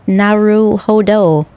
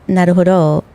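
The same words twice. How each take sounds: First: The r is a rolled-back English r. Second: The r is a quick Japanese tap. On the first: The speaker calls it wrong. "Naruhodo is what you would get" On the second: The speaker calls it right. "Instead of naruhodo"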